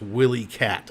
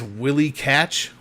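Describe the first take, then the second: First: The last word ends with a t sound. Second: The last word ends with a ch sound. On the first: The speaker calls it wrong. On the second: The speaker calls it right. "apparently it's Catch and not Cat at the end"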